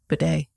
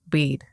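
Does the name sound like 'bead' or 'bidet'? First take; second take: bidet; bead. First: It is said as two syllables, like 'bidet'. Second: It is said as one syllable, like 'bead'. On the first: "Saint Bidet" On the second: "So I guess Bede is appropriate"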